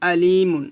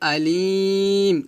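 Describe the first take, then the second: First: The word ends with a short -un sound. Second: The word stops on m after a long vowel. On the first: The reading continues without stopping. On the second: The reader stops at the end of the verse.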